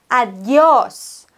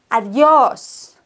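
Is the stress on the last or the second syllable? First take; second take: last; last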